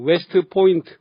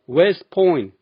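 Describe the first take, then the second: First: The t sound is clearly pronounced. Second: The t sound is dropped entirely. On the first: The speaker calls it wrong. "한국에선" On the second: The speaker calls it right. "실제로는 ... 트 소리 하나도 안 들립니다"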